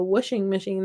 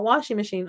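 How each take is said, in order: First: "washing" said as whooshing; childhood whooshing. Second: "washing" with open ah, no r; standard washing. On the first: Crafter gives her childhood version, "washing" as whooshing. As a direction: say "washing" with the vowel of push. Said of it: "what I thought it was called". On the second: Crafter rejects standard version, "washing" with open ah. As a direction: say "washing" with the vowel of father. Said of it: "not washing machine". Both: Shown as a demonstration.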